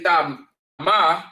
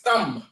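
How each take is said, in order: First: The word ends with an added vowel after m. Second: The word ends on the m sound. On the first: The speaker calls it wrong. "we can't say thama" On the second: The speaker calls it right. "but it's thumb"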